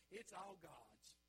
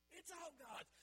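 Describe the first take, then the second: First: Drawn-out, deliberate words; slow emphatic statement; slow and weighty. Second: Pitched up and louder; rising preacher's cry; high, loud proclamation. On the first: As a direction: let each word land slowly. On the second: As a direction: ring it out higher. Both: Shown as a demonstration.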